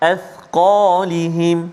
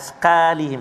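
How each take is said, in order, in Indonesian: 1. Bunyi qaf itu berat dan penuh. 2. Bunyi qaf itu ringan dan tipis.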